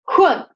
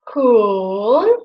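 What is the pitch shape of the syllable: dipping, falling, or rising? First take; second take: falling; dipping. First: The pitch drops sharply from high to low. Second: The pitch dips low, then rises again. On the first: "the fourth tone, and it goes like this, like jump down" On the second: "the third tone, which starts like here and goes till here, till the middle"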